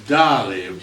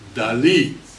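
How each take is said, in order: First: The stress is on the first syllable. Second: The stress is on the last syllable. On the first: This is the usual American way to say it. "in America we pronounce Dali" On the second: This is how the painter himself wanted it said. "emphasis on his last uh, letter, I. So this is how he signed his name"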